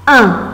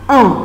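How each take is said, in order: First: The vowel is said with spread, smiling lips. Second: The vowel is said with rounded, forward lips. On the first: "on prononce le chiffre un, mais en souriant" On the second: "en allongeant la bouche vers l'avant ou bien les lèvres en avant"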